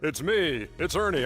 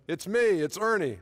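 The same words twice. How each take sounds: First: It is said in a deeper voice. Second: It is said in his normal voice.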